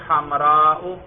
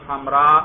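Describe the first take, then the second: First: The word ends with a glottal stop and 'u'. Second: The word ends on a plain long 'a'.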